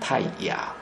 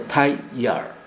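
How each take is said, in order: First: The name ends without a final L sound. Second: The name ends with a final L sound. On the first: The speaker calls it wrong. "不是我们现在简称泰雅" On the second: The speaker calls it right. "应该泰雅尔"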